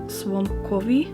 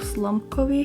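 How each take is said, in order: First: The consonant after the S is a W. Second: The consonant after the S is an L. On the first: The speaker calls it right. "the L with like the line is pronounced as a W" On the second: The speaker calls it wrong. "that I've been saying in my videos"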